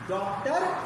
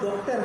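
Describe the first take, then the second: First: The first vowel falls between 'aa' and 'o'. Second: The first vowel is a rounded 'o' sound. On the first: The speaker calls it right. "अंग्रेजी में एक बीच वाला भी होता है" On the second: The speaker calls it wrong. "या तो डॉक्टर होगा"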